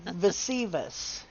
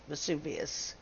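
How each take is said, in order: First: Vesivus said slowly as "veh-SEE-vus"; mispronounced Vesuvius. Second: Vesuvius said softly as "veh-SOO-vee-us"; low, quiet Vesuvius with SU in the middle; corrected pronunciation. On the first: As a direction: stretch out Vesivus with SEE in the middle. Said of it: "I believe is how it's pronoun". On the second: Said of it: "That sounds better to me". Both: Shown as a demonstration.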